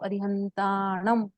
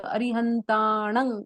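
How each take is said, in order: First: The word ends with a full closed m sound. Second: The word ends with a nasalized vowel. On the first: "म के नीचे dot है" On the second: "नाक से उच्चारित होके"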